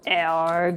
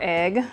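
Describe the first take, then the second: First: It is said in an imitated character's way. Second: It is said in a plain, ordinary way.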